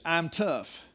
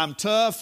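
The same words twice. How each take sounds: First: Said in the usual way. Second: I'm tough pushed up and out; stronger retold boast. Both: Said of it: "And I said".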